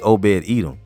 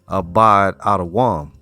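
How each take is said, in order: First: The name starts with an 'o' vowel sound. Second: The name starts with an 'a' vowel sound. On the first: The speaker calls it wrong. "it wouldn't be Obed Edom" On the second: The speaker calls it right. "it would probably be Abad Abad Adawam"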